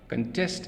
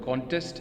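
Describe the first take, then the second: First: The stress is on the second syllable. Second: The stress is on the first syllable. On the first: It is used as a verb. "is the verb" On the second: It is used as a noun. "is the noun"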